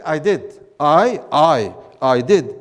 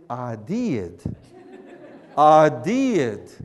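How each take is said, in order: First: Said in the usual way. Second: Drawled Southern "I did", lower in pitch; slow Southern drawl on I did; Southern accent. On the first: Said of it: "instead of saying". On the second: Shown as a demonstration. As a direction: flatten I to "ah" and stretch did into two syllables. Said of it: "you say".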